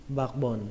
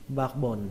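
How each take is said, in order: The two takes are said the same way.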